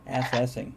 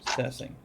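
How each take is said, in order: First: The stress is on the first syllable. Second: The stress is on the second syllable. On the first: "Stress on the first syllable" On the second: "Unless you want to put it where the pronunciation is"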